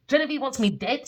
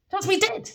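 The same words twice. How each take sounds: First: Said in the usual way. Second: "wants me dead" with "me" pitched much higher and rising; stressed repeat. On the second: Real, not acted. To the listeners, insisting "wants me dead" with "me" high. Repeats the claim, then pushes it.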